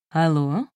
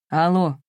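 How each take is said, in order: First: Lightly melodious female hello, rising at the end; melodious woman's voice. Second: Slightly husky male hello, falling at the end; hoarse. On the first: Unknown woman answering a lover's call, melodious. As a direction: answer the phone melodiously, with a questioning lift. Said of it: "раздался в трубке мелодичный женский голос". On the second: Old friend picking up the phone, hoarse. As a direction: answer the phone with a falling rasp. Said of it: "прохрипел Сергей". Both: A narrator's reading.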